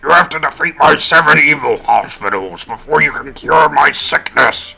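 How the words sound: It is read in a put-on character voice.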